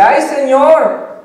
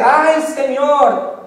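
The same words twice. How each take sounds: First: Much higher, louder, very slow lament; whiny sigh. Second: Much higher, very slow, drawn-out lament; whiny sigh. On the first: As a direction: wail it out, long and pitiful. Moses sighs again, louder. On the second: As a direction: stretch it out like a weary complaint. Moses sighs to the Lord. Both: Acted.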